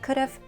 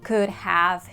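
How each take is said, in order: First: It is contracted into one short word. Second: Both words are said fully and separately. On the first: The speaker calls it right. "We contract them and say could've" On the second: The speaker calls it wrong. "we don't say could have"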